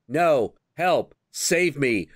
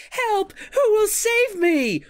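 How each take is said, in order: First: Mock plea with little panic; understated imitation of a cry for help; half-hearted damsel retake. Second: Very high, loud mock plea for rescue; shrieky imitation of a bad actress; hammed-up damsel's cry. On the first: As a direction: play a bad actress going through the motions. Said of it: "they have to do another take". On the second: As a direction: squeal like a melodramatic damsel in distress. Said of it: "she starts out to see and she's like".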